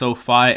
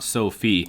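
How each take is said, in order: First: The second syllable rhymes with 'fie'. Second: The second syllable rhymes with 'fee'. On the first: The speaker calls it right. "it's pronounced SoFi" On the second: The speaker calls it wrong. "and not Sophie"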